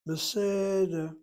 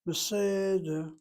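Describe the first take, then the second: The two takes are said the same way.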